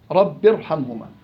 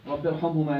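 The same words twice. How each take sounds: First: Said in the usual way. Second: "رب ارحمهما" recited slowly and a bit softer; slow recitation. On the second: Shown as a demonstration. Teacher recites the verse slowly for his students. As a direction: draw out "رب ارحمهما" gently, word by word.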